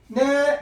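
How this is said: The pitch stays high and level. Answering the phone. "전화 받을 때만 생각하세요"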